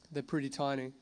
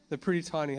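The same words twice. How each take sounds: First: They're pretty tiny repeated softer, to himself; soft, reflective repeat; quiet echo. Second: Said in the usual way. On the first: Shown as a demonstration. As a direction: murmur it back as an afterthought.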